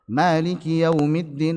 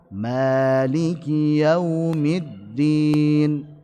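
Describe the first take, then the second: First: The phrase is recited at a fast pace. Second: The phrase is recited at a slow pace. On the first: "lebih cepat ya" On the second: "kalau yang lambat"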